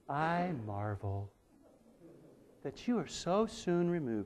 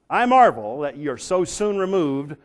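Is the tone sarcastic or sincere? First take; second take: sincere; sarcastic. First: It is said in a sincere, mild tone. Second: It is said in a sarcastic, indignant tone. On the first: The writer is genuinely surprised. The speaker calls it wrong. "his tone of voice is not" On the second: The writer is rebuking them. The speaker calls it right. "dripping with sarcasm and perhaps indignation"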